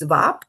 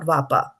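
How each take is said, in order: First: The word ends abruptly on the p sound. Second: An extra a vowel follows the p sound. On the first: The speaker calls it right. "it's Vap" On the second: The speaker calls it wrong. "not Vapa"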